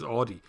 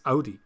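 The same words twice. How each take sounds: First: Audi with first vowel as in "law"; AUDI as "AW-dee". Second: Audi with first vowel as in "loud"; AUDI as "OW-dee". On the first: Retold or imitated. Host showing the Irish way of saying Audi, "AW-dee". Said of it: "'cause he says Audi". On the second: Shown as a demonstration. Host quoting a comment on how Audi is said, "OW-dee". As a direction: say Audi opening with an "ow" sound. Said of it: "the way he says Audi".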